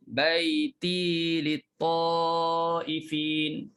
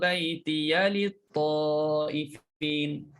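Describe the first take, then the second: First: The final ya of 'baiti' is silent. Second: The final ya of 'baiti' is voiced. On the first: "Kalimah baiti bagi syu'bah matikan ya" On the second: "Kemudian hafs"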